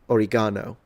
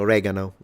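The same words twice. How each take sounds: First: It is said in a non-American way. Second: It is said in an American way.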